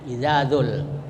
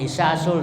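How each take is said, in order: First: The middle consonant is a buzzing z sound. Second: The middle consonant is a hissing s sound. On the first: The speaker calls it right. "karena tidak ada sin" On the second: The speaker calls it wrong. "zai disebut sin ... itu salah baca, salah arti"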